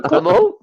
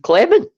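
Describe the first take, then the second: First: "Clement" as klee-MO, nasal final vowel, high and laughing; French Clement. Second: "Clement" as KLEM-en, English way, still high and laughing. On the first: Showing his co-host the name's French way, laughing. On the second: Answering his co-host with the English name, laughing. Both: Shown as a demonstration. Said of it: "What do you want me to say?".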